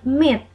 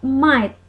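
First: The word has a short vowel, like 'mitt'. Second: The word sounds like 'might', with a long vowel. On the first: The speaker calls it right. "but myth" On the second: The speaker calls it wrong. "It is not might"

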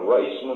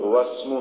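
First: A glottal stop separates the two words. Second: The words run together with no glottal stop. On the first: The speaker calls it wrong. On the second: The speaker calls it right.

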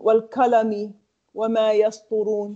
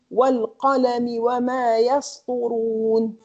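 First: The word qalami starts with a plain k. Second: The word qalami starts with a deep throaty q. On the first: The speaker calls it wrong. "Different when I say" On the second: The speaker calls it right. "if I want to say Noon"

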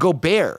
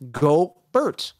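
First: The name ends with a sound like 'bear'. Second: The name ends with a sound like 'bert'. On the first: The speaker calls it wrong. "They're calling him Gobert" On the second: The speaker calls it right. "There's no bear in there. It's Bert"

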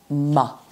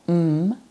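First: The consonant is followed by an added vowel. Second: The consonant is said alone, with no vowel. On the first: The speaker calls it wrong. "not ma" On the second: The speaker calls it right. "we would say m"

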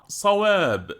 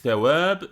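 First: It starts with a thick, heavy s and back vowel. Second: It starts with a thin, lisped s and front vowel. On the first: The word means correct or accurate. The speaker calls it right. "bilakis kalın ve kaba" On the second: The word means a reward for good deeds. The speaker calls it wrong. "bu ince ve peltek"

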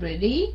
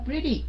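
First: The stress is on the second syllable. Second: The stress is on the first syllable. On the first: The speaker calls it wrong. "mình đâu có nói là pretty" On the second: The speaker calls it right. "Mình nói pretty"

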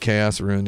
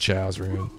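First: Chaos is said in the usual way, 'kay-oss'. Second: Chaos is said as one syllable, 'chows'.

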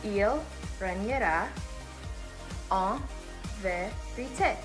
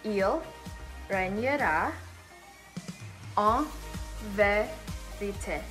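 No difference in how they are said.

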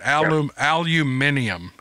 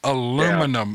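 First: The word is said in a British way. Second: The word is said in an American way. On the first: This is how others say it. The speaker calls it wrong. "they call it aluminium" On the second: This is how it should be said. The speaker calls it right. "It's aluminum"

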